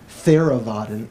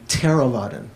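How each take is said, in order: First: It begins with a soft th sound. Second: It begins with a t and a puff of air. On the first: The speaker calls it wrong. "instead of saying Theravadan" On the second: The speaker calls it right. "it's actually Theravada, sort of like a little bit, a little bit air coming out extra"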